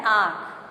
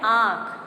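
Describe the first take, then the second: First: आँख loud, nasal sound from the throat, "aankh"; anusvara pronunciation. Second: आँख with nasalised long aa, "ãã-kh"; chandrabindu pronunciation. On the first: Teacher showing the first form, throat-made anusvara. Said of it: "अनुस्वार जो है वो गले से". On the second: Teacher showing the second form, nasalised vowel. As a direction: send the vowel of आँख through nose and throat. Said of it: "नाक और गले दोनों से". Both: Shown as a demonstration.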